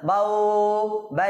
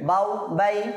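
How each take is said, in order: First: The vowels are stretched out long. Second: The vowels are kept short. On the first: The speaker calls it wrong. "টানা যাবে ... এভাবে বলা যাবে না" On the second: The speaker calls it right. "না টেনে পড়বো"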